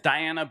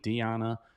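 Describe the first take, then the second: First: The name is said with an American pronunciation. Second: The name is said with a Colombian Spanish pronunciation. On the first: "if you're American, it's Diana" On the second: "my Colombian coworker ... she pronounces it Diana"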